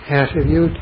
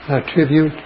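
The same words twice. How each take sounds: First: The stress is on the first syllable. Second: The stress is on the second syllable. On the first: It is used as a noun. "Attribute for noun" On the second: It is used as a verb. "attribute for the verb"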